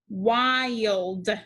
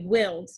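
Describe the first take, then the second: First: The vowel is a long i sound. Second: The vowel is a short i sound. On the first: The speaker calls it right. "So we try the long vowel sound" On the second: The speaker calls it wrong. "if I use a short I sound, it would say willed"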